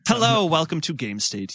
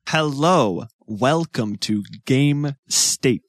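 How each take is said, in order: First: It is said smoothly and confidently. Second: It is said awkwardly and hesitantly.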